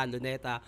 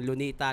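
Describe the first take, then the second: First: Said in the usual way. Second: "Lunita" with an "ee" in the middle syllable; Bisaya-style pronunciation. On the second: Shown as a demonstration. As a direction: say "Lunita", loo-NEE-ta, the Bisaya way. ("Lunita" na may "i", bigkas-Bisaya) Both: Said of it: "Bisaya versus Tagalog sa Facebook".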